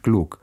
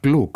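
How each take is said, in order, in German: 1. Es wird mit muttersprachlich deutschem Akzent gesprochen. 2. Es wird mit fremdem Akzent gesprochen. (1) "und ich Glück" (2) "Er sagt Glück"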